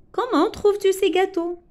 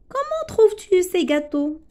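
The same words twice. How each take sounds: First: "trouves-tu" lifted high; question intonation. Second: "Comment" lifted high as a question; question intonation. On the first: Teacher repeating the question example, higher pitch. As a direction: ask it, raising "trouves-tu". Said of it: "C'est une phrase interrogative". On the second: Teacher modelling a question about cakes, higher. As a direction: ask it with a raised "Comment". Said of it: "Une phrase interrogative". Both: Shown as a demonstration.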